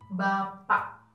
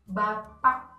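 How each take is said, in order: First: The final k is cut off and barely heard. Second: The final k is clearly released. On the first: The speaker calls it right. "Anda buat K seperti hilang" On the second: The speaker calls it wrong. "bukan Bapak, salah"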